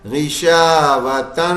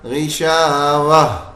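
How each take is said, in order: First: The word ends with a full -tan syllable. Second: The word ends with a silent, stopped h. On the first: The reading continues into the next word. "गिशावतन था ये" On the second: The reader stops on this word. "बस हा साकिन कर दिया"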